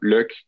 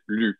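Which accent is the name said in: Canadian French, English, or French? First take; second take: Canadian French; French. First: It is said like the English word look. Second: It is said with a French pronunciation. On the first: "Pour les Canadiens français, je trouve que c'est souvent Luke. Comme, pour moi, ça s'entend comme look" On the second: "en France, c'était pas Luc ni Luke, c'était Luc"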